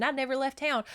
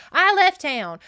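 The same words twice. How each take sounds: First: Higher-pitched retold accusation; mildly scornful echo of an accusation; mocking repetition. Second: Loud, high, emphatic comeback; acted outraged contradiction, loud and high; indignant rebuttal. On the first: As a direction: parrot the insult back, pitched up. Retold accusation before rebuttal. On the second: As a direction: fire it back with voice raised.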